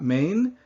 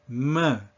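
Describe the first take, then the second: First: The final n consonant is clearly pronounced. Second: It ends on a nasal vowel with no n. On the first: The speaker calls it wrong. "Not main" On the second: The speaker calls it right. "That nasal vowel sound just is left there hanging"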